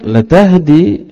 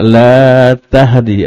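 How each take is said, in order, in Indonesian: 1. Vokal dalam 'la' pendek. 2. Vokal dalam 'la' panjang. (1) "Jangan salah baca di sini" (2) "Kalau la di sini dibaca panjang"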